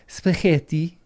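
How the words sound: It is said with an Italian-style accent. The speaker is trying to sound sophisticated. The speaker calls it wrong. "like somehow an Italian would"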